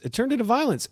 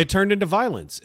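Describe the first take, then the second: First: "violence" pushed higher with disbelief; emphatic repeat. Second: Said in the usual way. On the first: Real, not acted. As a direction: hammer home "It turned into violence".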